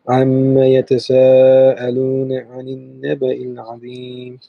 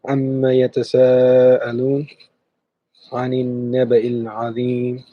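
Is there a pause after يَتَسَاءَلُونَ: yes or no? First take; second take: no; yes. First: It is read straight through without a pause. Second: There is a pause after يَتَسَاءَلُونَ.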